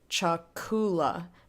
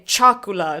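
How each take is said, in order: First: The stress is on the second-to-last syllable. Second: The stress is not on the second-to-last syllable. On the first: The speaker calls it right. "emphasis goes on the second to last syllable" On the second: The speaker calls it wrong. "If you mess with the emphasis, it gets weird"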